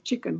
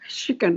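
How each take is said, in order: First: The word begins with a ch sound. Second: The word begins with a sh sound.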